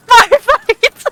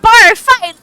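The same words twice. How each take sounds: First: High, loud gleeful yell, repeated; excited shout. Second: High, loud gleeful yell; excited shout. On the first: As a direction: shout it again, just as thrilled. Player repeats the cheer. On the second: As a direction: chant it with pure glee. Player cheers the bar fight. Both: Real, not acted.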